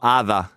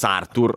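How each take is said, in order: First: The name is said with British pronunciation. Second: The name is said with Italian pronunciation. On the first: "Sì, dicono così" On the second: "Noi diciamo [name]"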